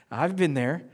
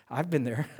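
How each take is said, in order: First: Slow, laughing through it; a slower, amused echo of the line; laughing repeat. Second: Said in the usual way. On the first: Shown as a demonstration. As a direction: chuckle as you repeat it.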